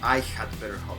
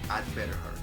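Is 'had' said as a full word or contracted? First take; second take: full; contracted. First: The word had is said in full. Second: The word had is contracted to d. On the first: The speaker calls it wrong. "you never say really" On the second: The speaker calls it right. "You say"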